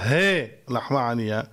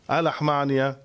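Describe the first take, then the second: First: The first word is pronounced 'hei'. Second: The first word is pronounced 'ha'. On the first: The speaker calls it right. "או יותר נכון להגיד על פי הקבלה" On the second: The speaker calls it wrong. "מה אנחנו אומרים?"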